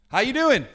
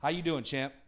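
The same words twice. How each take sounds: First: Called out loud to the crowd; big rising preacher's hello; loud greeting. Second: Lower, softer fatherly voice of the Lord; a hint of the Lord checking in on you; gently voiced Lord, low and soft; the Lord asking. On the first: Real, not acted. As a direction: throw the question out to the whole room, high and loud. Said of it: "It's like my favorite question". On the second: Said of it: "what I hear the Lord say to me".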